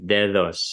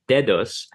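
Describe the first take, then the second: First: The second d is a soft fricative sound. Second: The second d is a full stop sound. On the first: This is the actual Spanish pronunciation. "the way it's pronounced in Spanish is dedos as a fricative" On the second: This is the underlying form before the sound change. "what would have been an underlying form"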